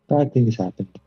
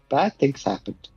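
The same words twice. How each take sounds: First: It is said in a flat, monotone voice. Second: It is said with lively, alarmed expression. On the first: The speaker no longer really cares. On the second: The speaker is shocked by what happened.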